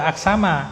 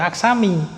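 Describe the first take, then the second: First: The word ends with an a vowel. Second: The word ends with an i vowel. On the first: "tidak kita baca aksama" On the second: "tidak kita baca aksami"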